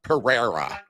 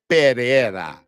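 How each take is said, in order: First: The r sound is plain, not rolled. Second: The r sound is rolled with the tongue. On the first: The speaker calls it wrong. "not Pereira" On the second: The speaker calls it right. "that's how you you pronounce that word"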